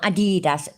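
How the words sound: It is pronounced the American way. The speaker calls it wrong. "what is it the Yanks say? ... Not Adidas"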